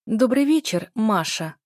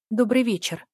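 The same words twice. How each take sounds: First: Выше и громче, со срывом в голосе; сдерживаемая истерика в приветствии; надрывно, на грани истерики. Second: Легко и спокойно, как будто ничего не случилось; небрежное приветствие без напряжения; непринуждённо. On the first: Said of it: "надрывно и на грани истерики". (надрывно, почти истерично) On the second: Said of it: "мне удалось произнести эти непростые слова непринуждённо". (спокойно и непринуждённо) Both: A narrator's reading.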